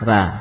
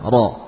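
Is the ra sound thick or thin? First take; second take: thin; thick. First: The r sounds light and thin. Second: The r sounds heavy and thick. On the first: "Kalau ra tipis ya" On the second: "kita baca dengan tebal"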